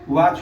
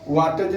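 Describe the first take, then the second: First: No separate t sound is heard before ch. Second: A separate t sound is heard before the ending. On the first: The speaker calls it right. "तो टी के बाद अगर C H रहे तो टी silent रहेगा" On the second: The speaker calls it wrong. "वाटज नहीं पढ़ते हैं"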